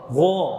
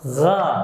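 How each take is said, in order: First: The vowel is rounded, lips pushed forward. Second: The vowel is open, lips not rounded. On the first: The speaker calls it wrong. "Kalau maju salah" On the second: The speaker calls it right. "Terbuka tanpa monyong"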